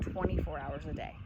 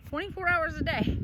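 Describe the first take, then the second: First: Said in the usual way. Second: Higher, disbelieving repeat of "Twenty-four hours a day"; incredulous echo. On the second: Shown as a demonstration. Vlogger repeating her mom's claim about barking dogs, incredulous.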